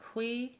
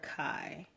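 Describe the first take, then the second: First: The word is pronounced like 'kwee'. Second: The word is pronounced like 'kai'. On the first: "like uh, K W E E" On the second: "like K I I"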